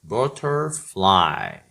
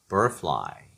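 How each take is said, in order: First: The middle consonant is a clear t sound. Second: The middle consonant is a flapped, r-like sound.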